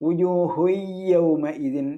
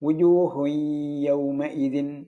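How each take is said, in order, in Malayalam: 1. y പൂർണ്ണമായി ഇരട്ടിപ്പിക്കപ്പെടുന്നു, നാസിക ശബ്ദമില്ല. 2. y ഭാഗികമായി ഇരട്ടിപ്പിക്കപ്പെടുന്നു, നാസിക ശബ്ദത്തോടെ. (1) "എന്നാരാൻ പാടില്ല" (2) "മണിക്കലും വരണം, ഭാഗികമായ ഷദ്ദും വരണം"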